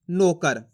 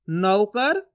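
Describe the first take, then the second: First: नौकर said as "no-kar", lower and falling; pure o in place of au in नौकर; wrong o vowel. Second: नौकर with open au in नौ, tune rising; stressed au. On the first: Teacher contrasting two readings, this one with plain o. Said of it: "फर्क समझ में आ रहा है". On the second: Teacher contrasting two readings, this one with stressed au. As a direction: lean on the au of नौकर, "nau-kar". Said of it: "यानी कि जोर लगाएंगे". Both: Shown as a demonstration.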